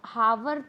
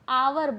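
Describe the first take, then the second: First: The word begins with an h sound. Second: The word begins with a vowel sound. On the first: The speaker calls it wrong. "हावर तो बोलते नहीं है ना" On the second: The speaker calls it right. "आवर बोलते हैं"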